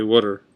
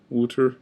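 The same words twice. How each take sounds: First: Said in the usual way. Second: "water" with an OO, "wooter"; funny pronunciation. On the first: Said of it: "I say water". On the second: Shown as a demonstration. Vlogger offering a funny version, OO pronunciation. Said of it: "'cause it's funny".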